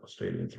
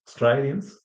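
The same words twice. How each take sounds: First: Said in the usual way. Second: "Australians" in Aussie style, "stray" said as "stry"; Aussie twang on "Australians", higher pitch; Australian accent. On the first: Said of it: "not Australians". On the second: Shown as a demonstration. Teacher showing a typical Aussie pronunciation, Australian accent. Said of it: "that's very typical Aussie".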